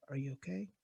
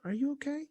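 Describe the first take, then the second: First: Soft, low, tender question; very gently. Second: Soft, tender question; very gently. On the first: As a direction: ask softly like to a scared child. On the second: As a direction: ask it softly and kindly. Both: Retold or imitated. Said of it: "Very gently".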